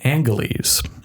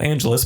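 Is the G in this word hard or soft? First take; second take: hard; soft. First: The G is hard, like in go. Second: The G is soft, like a J sound. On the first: This is how residents said it before the mid-1950s. "with a hard G" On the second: This is how the name is said today. "given its modern pronunciation"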